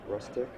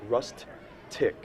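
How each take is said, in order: First: The word is said smoothly, as one unit. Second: The two syllables are said separately and crisply.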